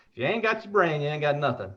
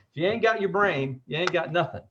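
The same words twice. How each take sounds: First: Higher-pitched Southern swang, imitated; Louisiana accent. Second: Said in the usual way. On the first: Host repeating the slogan on request, in a Louisiana accent. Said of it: "I gotta say the accent". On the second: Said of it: "You gotta stay with the Southern swang".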